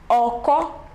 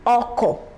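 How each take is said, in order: First: The pitch goes from mid to high. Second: The pitch goes from mid to low. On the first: "Re, Mi" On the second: "Re, Do"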